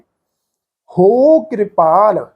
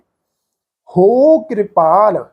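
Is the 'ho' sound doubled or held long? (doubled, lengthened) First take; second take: lengthened; lengthened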